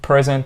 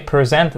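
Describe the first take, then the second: First: The stress is on the first syllable. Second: The stress is on the second syllable. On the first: It is the noun. "stressed على الفيرست syllable ... دي تبقى noun" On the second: It is the verb. "this is the verb, You stressed on the second syllable"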